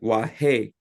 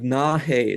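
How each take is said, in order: First: The word begins with a W sound. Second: The word begins with an N sound. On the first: A man is speaking. "is what the man would say" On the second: A woman is speaking. "is how they would say Oki for a woman"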